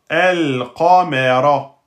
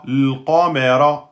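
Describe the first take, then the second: First: The word begins with a vowel before the L. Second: The word begins directly with the L sound. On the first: The word is said on its own, at the start. "je prononce le a parce que je commence par ce mot-là" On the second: The word follows another word and links to it. "précédé d'un mot, devient l qamera"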